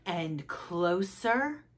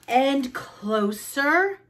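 First: Slow, soft, drawn-out "closer"; creeping suspense. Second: Very slow, higher "closer", rising at the end; building suspense. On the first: Froggy scoots toward the story, soft slow creeping. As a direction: creep in quietly on each word. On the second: Froggy inches still nearer the story, rising drawn-out suspense. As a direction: stretch it out and lift the pitch. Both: A narrator's reading.

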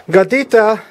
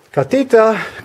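First: High sing-song call for the cat. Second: High drawn-out call for the cat. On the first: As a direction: call across the house for a hidden cat. Calling the cat in Spanish. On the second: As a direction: call the cat from another room. Calling the cat again. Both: Real, not acted.

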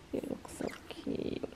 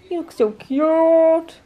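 First: Slow, hushed whisper to a pet; cooing whisper. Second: Loud, higher, very drawn-out coo; gushing coo. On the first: Owner admiring the pug in a little towel, whispered coo. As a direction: whisper it slowly, adoringly. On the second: Owner admiring the pug in a little towel, gushing. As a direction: stretch it out slowly, gushing. Gushing over dog's photo. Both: Real, not acted.

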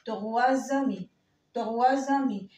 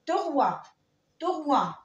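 First: "تغوى زامي" with final s voiced as z; liaison with z. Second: "تغوى" ending on the vowel, no s; silent final s. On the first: Teacher showing the rule before a vowel, linking z. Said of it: "لو جه بعديها لتر فويل بنطقها ز". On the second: Teacher modelling the number three for beginners, silent s. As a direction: drop the s at the end of "تغوى". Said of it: "ما بنطقهاش". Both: Shown as a demonstration.

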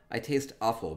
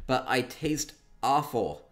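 First: Said in the usual way. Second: Slow, weighty stress on "taste awful"; emphasized line. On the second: Shown as a demonstration. Streamer playing up the owner's backstory, slow and weighty. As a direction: lean hard on "taste awful", drawn out slowly. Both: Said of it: "needed to be emphasized".

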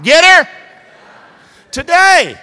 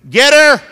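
First: High, loud shout of the Southern saying; louder call. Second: Call and response. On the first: Preacher leading the crowd in a louder shout. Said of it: "Say it louder". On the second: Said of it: "Say that with me". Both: Shown as a demonstration.

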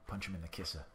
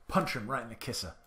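First: Said in the usual way. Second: A hint of an old-timey tough guy on "Punch 'em right in the kisser"; lightly voiced 1930s gangster, punching "kisser"; 1930s dude. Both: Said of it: "I don't know why I'm talking like a nineteen thirties dude".

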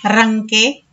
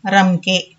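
First: రంకే with a strongly rolled r, rising ending; old hard r. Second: రంకే with a light r, pitch let down; present-day soft r. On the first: Teacher showing the old letter, రంకే with hard rolled r. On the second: Teacher showing today's letter, రంకే with light r. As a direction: say రంకే with a short tapped r. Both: Shown as a demonstration. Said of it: "ఇలా వీటిని పలుకుతున్నాము".

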